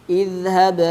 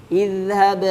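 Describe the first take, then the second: No difference in how they are said.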